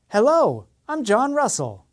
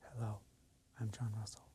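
First: The voice is loud and strong. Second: The voice is quiet and soft. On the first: "and then increase the volume" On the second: "Start quietly"

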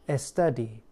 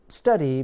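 First: It starts with an added vowel before S. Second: It starts directly with the S sound.

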